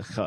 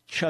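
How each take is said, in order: First: Softer throat-scraped ch; guttural Hebrew ch. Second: Ch as in church, set apart; English ch sound. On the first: Host gives the right sound, guttural ch. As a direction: rasp ch at the back of throat. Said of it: "It's a ch". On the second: Host repeats his pronunciation point, English ch. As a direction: pronounce a plain English ch. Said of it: "there is no ch sound in Hebrew". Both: Shown as a demonstration.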